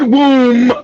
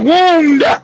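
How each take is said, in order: First: The word ends with an m sound, no d. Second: The word ends with a clear d sound. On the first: The speaker calls it wrong. "It's not womb" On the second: The speaker calls it right. "It's wound, dummy. W O U N D, wound"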